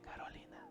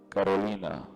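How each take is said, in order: First: The name is said in a soft whisper. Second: The name is said in a loud, booming voice. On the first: It is a quiet call that people ignore. "en el susurro" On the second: It is an unmistakable, dramatic divine call. "una voz tipo trueno"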